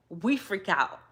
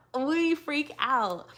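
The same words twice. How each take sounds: First: Said in the usual way. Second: Higher, slow and drawn out; slow emphatic repeat. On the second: Shown as a demonstration. Repeating it to the audience, slow and emphatic. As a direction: stretch it out to make the point.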